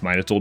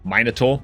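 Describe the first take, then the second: First: It is said in a non-British accent. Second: It is said in a very British accent.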